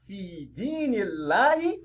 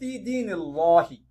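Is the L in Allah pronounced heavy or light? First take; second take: light; heavy. First: The L in Allah is light and thin. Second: The L in Allah is heavy and thick. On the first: The speaker calls it right. "which is Tarkik" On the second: The speaker calls it wrong.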